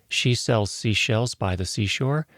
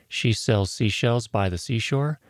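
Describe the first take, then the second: No difference in how they are said.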